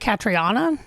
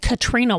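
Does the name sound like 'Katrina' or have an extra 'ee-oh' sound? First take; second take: extra ee-oh; Katrina. First: The name has an 'ee-oh' sound in the middle. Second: The name sounds like Katrina, without an 'ee-oh'. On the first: This follows the way the name is spelled. "I've heard other people say Catriona, and it is R I O" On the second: Someone else said it this way. "they said Katrina Ward"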